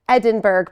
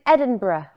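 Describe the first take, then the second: First: The ending of the word sounds hard and full. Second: The ending of the word sounds soft and light. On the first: The speaker calls it wrong. "but we don't say it like that" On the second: The speaker calls it right. "It's a little bit soft on the end"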